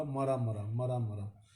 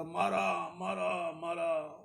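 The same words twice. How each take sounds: First: मरा said as ma-ra, short first a, falling; मरा मरा with a short a, like dead, dead; saying mara not Ram. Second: मारा drawn out as maa-ra, a pleading cry; victims crying maara. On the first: Robber chanting mara mara instead of Ram's name, short a. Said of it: "Ram नाम नहीं बोला". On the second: Victims of the robber crying out maara, long aa. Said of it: "कहता". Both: Retold or imitated.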